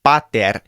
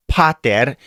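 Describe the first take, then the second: First: PATER with a dry p, almost a b; unaspirated P. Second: PATER with a big puff of air on the p; breathy English p opening pater; aspirated P. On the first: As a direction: open pater between b and p, no puff. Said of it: "It's not a big puff of air". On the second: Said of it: "it's not pater". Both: Shown as a demonstration.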